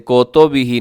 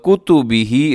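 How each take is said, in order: First: The first vowel is an o sound. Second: The first vowel is a short u sound. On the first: The speaker calls it wrong. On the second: The speaker calls it right.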